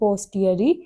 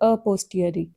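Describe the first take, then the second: First: The word begins directly with 'p', no 'a'. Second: The word begins with an 'a' sound. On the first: The speaker calls it right. "यहाँ पे दोनों cases में generally ए silent होता है।" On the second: The speaker calls it wrong. "मैंने जानबूझ के गलत बोला है।"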